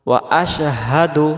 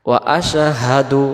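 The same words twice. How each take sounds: The two takes are said the same way.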